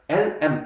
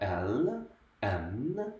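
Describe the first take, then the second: First: The letter names end abruptly with closed mouth. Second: The letter names end with a lingering resonance. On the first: The speaker calls it wrong. "L, M 이게 아니라" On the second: The speaker calls it right. "이런 식으로 여운이 남는 음"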